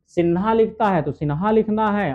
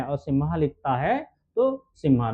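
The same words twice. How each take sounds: First: सिन्हा said with a clear n before ha; teacher contrasting सिन्हा with सिम्हा; Sinha pronunciation. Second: Teacher contrasting सिम्हा with सिन्हा; Simha pronunciation. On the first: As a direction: stress the n sound in सिन्हा. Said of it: "जैसे सिन्हा है". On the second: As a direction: stress the m sound in सिम्हा. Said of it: "वर्तनी में दिया है नरसिम्हा". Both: Shown as a demonstration.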